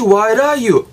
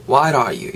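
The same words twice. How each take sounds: First: "why are you" as "why-ra-you", high and stretched; linked r. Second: "why are you" with a weak, glided "are"; reduced linking. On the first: ("why are you"를 '와이라유'로 높고 길게 발음) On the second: ("why are you"의 are를 약하게 이어 발음) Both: Shown as a demonstration. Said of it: "요렇게 알아가시고요".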